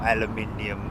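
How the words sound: The word is said the British way. "for our British friends"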